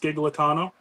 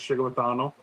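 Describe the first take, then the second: First: The surname has an Americanized pronunciation. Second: The surname has an Italian pronunciation. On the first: "So Americanized, it's Skigletano" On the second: "and Italian, which is Chigletano"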